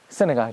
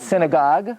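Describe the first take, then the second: First: The stress is on the first syllable. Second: The stress is not on the first syllable. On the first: The speaker calls it right. "In English, the emphasis is on the first syllable" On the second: The speaker calls it wrong. "Not synagogue"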